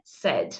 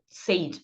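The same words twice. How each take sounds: First: The word has a short e vowel, like bed. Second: The word has the long ay vowel of say. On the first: The speaker calls it right. "mas na verdade é said" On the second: The speaker calls it wrong. "é bem comum o pessoal ler said"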